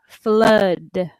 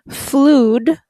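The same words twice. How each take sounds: First: The vowel is not said as the spelling suggests. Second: The vowel is said as the spelling suggests. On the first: The speaker calls it right. "but it's flood" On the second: The speaker calls it wrong. "It's not flood, although it looks like flood"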